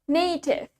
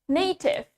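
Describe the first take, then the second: Both takes have the same delivery.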